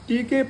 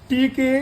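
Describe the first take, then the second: Both takes have the same delivery.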